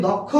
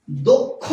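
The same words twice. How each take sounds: First: দক্ষ with an open "aw" first vowel; common mispronunciation. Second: দক্ষ with a closed "o" first vowel; correct pronunciation. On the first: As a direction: say দক্ষ as "dawk-kho". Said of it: "আমরা ভুল বলি". (দক্ষ-এর প্রথম স্বর খোলা অ) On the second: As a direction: say দক্ষ as "dok-kho". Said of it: "এই শব্দটির উচ্চারণ হচ্ছে". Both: Shown as a demonstration.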